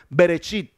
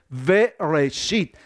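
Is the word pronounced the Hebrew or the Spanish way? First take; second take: Spanish; Hebrew. First: It is said with simple Spanish-style sounds. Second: It is said with Hebrew-style sounds. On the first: The speaker calls it wrong. "Nosotros lo pronunciamos muy fácil en español" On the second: The speaker calls it right. "pero la palabra es Bereshit"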